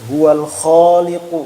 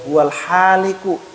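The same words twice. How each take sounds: First: "Huwal khaliqu." said slowly with a rough throat kho; correct kho. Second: Demonstrating the mistake; wrong ha. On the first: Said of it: "misalnya kita baca". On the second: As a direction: breathe a plain ha in haliku, slowly. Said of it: "Tapi kalau kita salah baca". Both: Shown as a demonstration.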